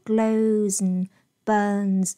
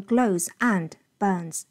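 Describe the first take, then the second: First: "and" shrunk to "n", linked to "glows"; linked weak and. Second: "and" said in full in "glows and burns"; unnatural strong and. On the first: Teacher modelling natural linking, "glows and burns" as "glowzn burns". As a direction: run "glows and" together as "glowzn". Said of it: "它有一个连读". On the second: Teacher showing what sounds unnatural, "and" in full. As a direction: give "and" its full vowel and d. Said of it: "不要念glows and burns". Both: Shown as a demonstration.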